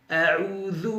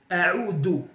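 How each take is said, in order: First: The middle consonant is a voiced th sound. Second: The middle consonant is a plain d sound. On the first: The speaker calls it right. "Ici, c'est la lettre Dhal" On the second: The speaker calls it wrong. "Parfois on entend certains frères ou certains de nos sœurs dire A'oudou"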